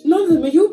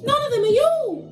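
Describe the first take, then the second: First: It is said in the speaker's normal voice. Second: It is said in a Gingerbread Man character voice.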